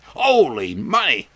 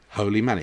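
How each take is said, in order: First: It is said as a surprised exclamation. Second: It is said as a calm, plain statement. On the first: It is an expression of surprise. "as an expression, as somebody might say" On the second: Money is literally sacred.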